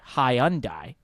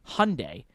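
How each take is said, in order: First: It is said the British way. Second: It is said the American way. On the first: "Brits say Hyundai" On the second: "Americans say Hyundai"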